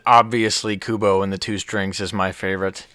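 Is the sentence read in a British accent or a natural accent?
natural. It is read in the speaker's natural accent.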